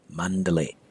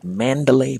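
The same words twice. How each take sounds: First: It is said with a Burmese pronunciation. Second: It is said with an English pronunciation. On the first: The speaker calls it right. "but Mandalay" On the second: The speaker calls it wrong. "the proper pronunciation in Burmese is not Mandalay"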